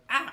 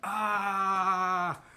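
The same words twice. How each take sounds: First: It is a single short cry. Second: It is a long, steady scream.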